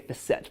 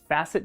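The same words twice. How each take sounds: First: The word is said in the refined-sounding way. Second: The word is said in the everyday, plainer way. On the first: "most like to say facet because it sounds more sophisticated" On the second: "a lot of people will sometimes even pronounce them as facet joints"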